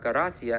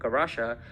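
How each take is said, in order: First: The consonant before the final vowel is 't'. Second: The consonant before the final vowel is 'sh'. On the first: This is the form the group was ordered to use. "they were told to use the word uh, Garatia" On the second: This is the form one group kept using despite the threat. "the Jesuit Christians, used the word Garasha"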